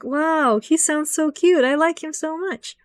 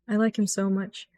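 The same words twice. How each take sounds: First: Much higher, swooning squeal; high gushing swoon; gushing fangirl. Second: Much softer fond murmur; soft fond confession; soft adoring. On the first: Retold or imitated. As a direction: coo it like you've fallen for him. Gushing over a character's voice. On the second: Real, not acted. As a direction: say it tenderly to yourself. Affectionate aside.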